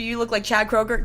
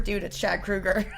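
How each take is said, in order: First: "Kroger" said with a long OH; Kroger pronunciation. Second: "Kruger" drawn out with an OO; Kruger pronunciation. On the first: Asking the singer about his likeness, "Kroger" as KROH-ger. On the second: Singer correcting his name, "Kruger" as KROO-ger. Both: Retold or imitated. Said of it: "argument over how to say".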